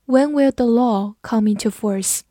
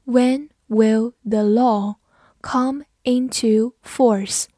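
First: Said in the usual way. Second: Slow, word by word with pauses; slow, careful model reading; slow read-through. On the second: Shown as a demonstration. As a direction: read it slowly for learners, each word separate. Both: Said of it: "我们慢读一遍".

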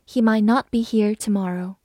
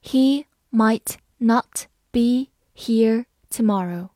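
First: Said in the usual way. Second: Slow, clear word by word reading. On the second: Shown as a demonstration. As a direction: read it slowly for learners. (慢速朗读) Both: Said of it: "好，慢慢来读。".

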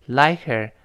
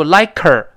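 First: LIKE HER linked lightly as "like-er"; barely-there h. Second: LIKE HER with a loud, forceful k on HER; wrongly heavy link, loud punched KER in "like her"; overdone hard k. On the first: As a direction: let the h of "her" almost vanish in "like her". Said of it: "H似有似无的". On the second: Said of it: "不能读like her". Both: Shown as a demonstration.

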